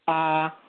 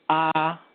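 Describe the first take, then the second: The two takes are said the same way.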